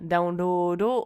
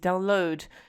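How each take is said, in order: First: It is said with Japanese sounds, like daunroodo. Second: It is said with English sounds, like download. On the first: "some Japanese words"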